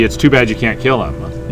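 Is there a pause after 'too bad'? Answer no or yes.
no. It runs on without a break after 'too bad'. It is a shame that killing it is not possible. "or it could just be"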